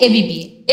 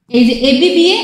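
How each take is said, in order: First: Teacher settles "এবিবিএ" down on the repeat; falling close. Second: "এবিবিএ" said as a rising list item; teacher lifts "এবিবিএ" on the first read; rising recital. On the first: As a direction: end "এবিবিএ" on a clear low fall. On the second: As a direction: call out "এবিবিএ" with the voice going up, as if more follows. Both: Shown as a demonstration. Teacher recites rhyme scheme.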